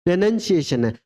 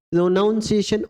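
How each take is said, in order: First: प्रोनंसिएशन said with short "nun", not "noun"; the right way, प्रोनंसिएशन as "pro-nun-si-a-tion"; सही उच्चारण: प्रोनंसिएशन; correct pronunciation. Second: प्रोनाउंसिएशन said with "nown" as in noun; the common wrong way, प्रोनाउंसिएशन with "aun"; पढ़ाते हुए गलत उच्चारण: प्रोनाउंसिएशन; mispronunciation. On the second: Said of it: "उच्चारण में भी कई बार गलती कर जाते हैं". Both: Shown as a demonstration.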